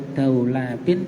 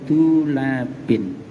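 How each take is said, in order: First: The first syllable has an 'au' vowel sound. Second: The first syllable has an 'u' vowel sound. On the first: "atau dibaca fathah dalnya, bisa dibaca daulabin" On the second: "dengan dibaca domah dalnya"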